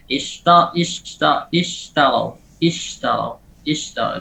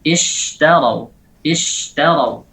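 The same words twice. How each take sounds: First: "ishtarau" with a feeble, short sh; weak shin. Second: "Ishtarau" with a long airy sh, slowly; full spreading shin. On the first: Teacher shows weak tafashi, underpowered shin. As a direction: give the sh in "ishtarau" little air. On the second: Teacher says give it air, strong drawn-out shin. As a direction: spread plenty of breath through the sh in "ishtarau". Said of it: "tafashinya diberikan". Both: Shown as a demonstration.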